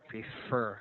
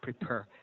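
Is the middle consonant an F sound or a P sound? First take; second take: F sound; P sound. First: The middle consonant is a continuous blown F. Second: The middle consonant is a quick stopped P. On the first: The speaker calls it right. "there should be blowing, continuous blowing" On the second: The speaker calls it wrong. "When you say prepare, it's only quick"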